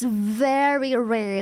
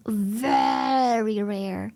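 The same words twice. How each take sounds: First: Said in the usual way. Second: "Very" stretched out very slowly; emphatic VERY. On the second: Real, not acted. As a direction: draw out the vowel of "Very" for emphasis. Repeats it for emphasis.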